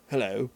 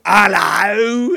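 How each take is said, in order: First: Plain conversational British hello, not a character voice; basic British accent. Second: A loud, hammed-up character British hello; over-the-top British accent. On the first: Showing the cohost a simple British hello, low-key. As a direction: say it in an everyday British accent, nothing extra. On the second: Showing the cohost an overdone British hello, loud and exaggerated. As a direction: push the British accent big, like a caricature. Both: Shown as a demonstration. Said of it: "there's a difference between the two".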